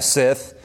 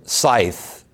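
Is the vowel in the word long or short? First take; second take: short; long. First: The vowel is short, as in 'sit'. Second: The vowel is long, as in 'sigh'. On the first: The speaker calls it wrong. "I always pronounce that word Sith" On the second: The speaker calls it right. "But it is not the Dark Lord from Star Wars"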